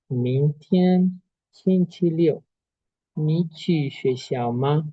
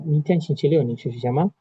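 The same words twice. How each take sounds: First: It is said very slowly. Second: It is said very fast.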